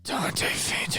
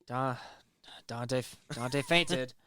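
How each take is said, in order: First: Breathy whispered, worn out. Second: Slow, quieter, sighing it out; dramatic sigh. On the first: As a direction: whisper it, utterly fed up. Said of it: "Fourth time". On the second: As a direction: heave a tired sigh through it. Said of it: "Third time". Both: Pretend.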